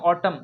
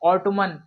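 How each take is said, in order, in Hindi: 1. आखिर में एम की आवाज़ आती है, एन नहीं। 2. आखिर में एन की साफ़ आवाज़ आती है। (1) "एन लास्ट में क्या है, ये साइलेंट है" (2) "ऑटोमन नहीं पढ़ेंगे"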